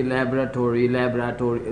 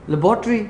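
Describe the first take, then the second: First: لیبارٹری as American "LAB-ra-tory", stress on the first syllable; American pronunciation. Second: لیبارٹری said "le-BOR-tree", Pakistani way; Pakistani pronunciation. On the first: Shown as a demonstration. Practising with his son, the American "LAB-ra-tory". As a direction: say لیبارٹری the American way, lightly and lower. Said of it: "ہم نے کبھی بولا نہیں تھا اس طرح سے".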